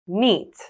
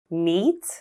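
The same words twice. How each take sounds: First: The pitch falls at the end. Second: The pitch rises at the end. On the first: "with rising and falling intonations" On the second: "with rising and falling intonations"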